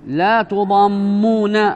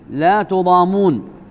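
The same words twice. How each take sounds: First: The m sound is doubled and held longer. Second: The m sound is single and short. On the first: "بالتشديد" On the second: "بتخفيف الميم"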